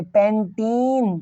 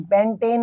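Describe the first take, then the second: First: पैंटीन with a long, drawn-out "ee" in the second syllable; correct pronunciation. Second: पैंटेन with an "ay" sound in the second syllable; the mistaken "ay" vowel in पैंटेन, not "ee"; wrong pronunciation. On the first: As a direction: stretch पैंटीन slowly, "pen-teeen". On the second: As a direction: say पैंटेन as "pen-tayn". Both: Shown as a demonstration. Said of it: "पैंटेन नहीं".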